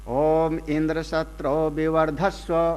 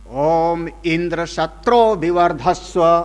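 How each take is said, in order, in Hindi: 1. उदात्त अक्षर नीचे स्वर में बोला जाता है, ज़ोर से नहीं। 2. उदात्त अक्षर ऊँचा उठाकर ज़ोर से बोला जाता है। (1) "उदात्त को जो जोर से बोलना चाहिए था अनुदात्त किया" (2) "इस तरीके से मंत्र पढ़ करके आहुति दे"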